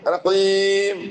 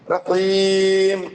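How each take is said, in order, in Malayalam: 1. ദീർഘ സ്വരം വ്യക്തമായ 'ee' ശബ്ദമാണ്. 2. ദീർഘ സ്വരം വ്യക്തമായ 'ee' ശബ്ദമാണ്.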